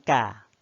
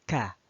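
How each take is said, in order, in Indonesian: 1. Bunyi k dilepas tanpa hembusan udara. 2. Bunyi k dilepas dengan hembusan udara. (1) "Bukan ka" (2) "Bunyi kafnya itu ada udaranya keluar sedikit"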